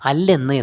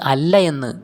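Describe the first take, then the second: First: The words merge, the first vowel dropped. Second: The two words are said separately, vowel kept. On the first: "നമ്മൾ അല്ലെന്ന് എന്ന് വായിക്കുന്നു" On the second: "വായിക്കാതെ"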